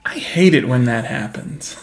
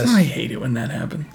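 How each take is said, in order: First: Slow, dry deadpan delivery. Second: Dry, flat retelling of the line; deadpan. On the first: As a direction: say it totally unimpressed. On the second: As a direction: keep it completely dry. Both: Retold or imitated. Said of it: "deadpan kind of delivery".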